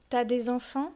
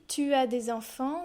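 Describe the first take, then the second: First: The vowel of tu is dropped. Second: The vowel of tu is fully pronounced.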